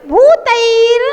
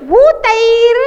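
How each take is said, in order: The two takes are said the same way.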